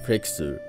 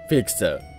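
First: The word is said with English-like pronunciation. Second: The word is said in plain Japanese katakana style.

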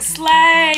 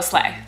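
First: It is said loudly with excited energy. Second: It is said casually with flat energy. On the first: The older, enthusiastic drag-scene usage. "it used to be like" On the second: The newer, offhand younger-generation usage. "and now they just go"

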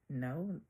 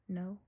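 First: It is said with a sassy attitude. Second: It is said plainly, with no attitude.

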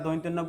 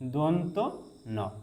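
First: The first syllable has an oi diphthong. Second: The first syllable has a plain o vowel. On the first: The speaker calls it wrong. "কিন্তু এটার উচ্চারণ দৈন্তেন্য না" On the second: The speaker calls it right. "এটা সঠিক উচ্চারণ হচ্ছে দন্ত ন"

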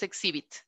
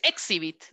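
First: The stress is on the middle syllable. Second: The stress is not on the middle syllable. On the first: The speaker calls it right. "sino que es exhibit" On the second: The speaker calls it wrong. "No es exhibit"

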